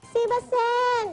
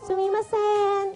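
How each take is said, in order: First: It is said in a pinched, squeezed voice. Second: It is said in a normal voice.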